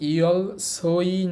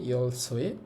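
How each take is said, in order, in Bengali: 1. শেষ অক্ষরটি 'oi' ধ্বনি দিয়ে শেষ হয়। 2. শেষ অক্ষরটি 'we' ধ্বনি দিয়ে শেষ হয়। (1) "এটার উচ্চারণ ও ই হবে না" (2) "এটার উচ্চারণ হবে ওয়ে"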